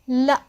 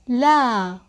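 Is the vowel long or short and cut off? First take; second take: short; long. First: The vowel is short and cut off abruptly. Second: The vowel is long and smoothly held.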